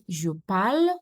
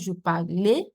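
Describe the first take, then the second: First: The verb ends with a silent ending. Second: The verb ends with a pronounced vowel. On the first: The speaker calls it right. "They are pronounced pal. That means I would read je parle" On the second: The speaker calls it wrong. "not je parlais"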